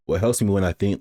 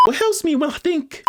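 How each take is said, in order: First: Said in the usual way. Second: High-pitched put-on voice; high, artificial character read; switched-up character voice. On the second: Shown as a demonstration. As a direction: try the line in a much higher voice. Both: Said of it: "so I'm gonna switch it up".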